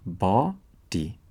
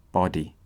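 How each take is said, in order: First: Slow syllable split. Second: Said in the usual way. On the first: Shown as a demonstration.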